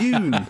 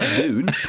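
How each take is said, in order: First: It is said with an American 'doon' sound. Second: It is said with a British 'dyoon' sound. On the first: The speaker calls it right. "they say Dune. It's got a U in it" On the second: The speaker calls it wrong. "not not Dune"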